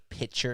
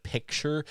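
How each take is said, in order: First: "picture" without its k sound; pronunciation contrast. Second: Said in the usual way. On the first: Shown as a demonstration. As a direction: say picture as "pitcher", dropping the k. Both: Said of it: "you say picture instead of picture".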